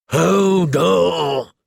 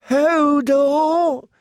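First: Drawn-out cry of exertion; effortful cry. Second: Very high, drawn-out whimper; small-voiced whimper. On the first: Hodor straining under the slanted door, effortful cry. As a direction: push the word out with the heave. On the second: Hodor huddled amid ruin and death, small whimper. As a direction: whimper it thinly, far above normal pitch. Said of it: "he whimpered in a small voice". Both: A narrator's reading.

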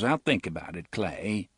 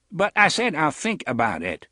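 First: Said in the usual way. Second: I said punched high and loud; an impatient I said, louder and higher; stress on I. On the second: Acted. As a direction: lean hard on I to shut them down.

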